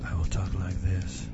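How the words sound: The voice is low, soft and sultry. A woman is speaking. "For Christine's voice, I will talk like this. Sultry"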